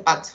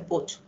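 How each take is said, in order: First: The vowel sounds like an 'a'. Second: The vowel sounds like a 'u'. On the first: The speaker calls it wrong. "Aquí nos dice pat" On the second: The speaker calls it right. "se dice put"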